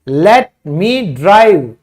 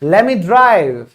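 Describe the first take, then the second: First: 'Let me' is said as two full words. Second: 'Let me' is run together as 'lemme'.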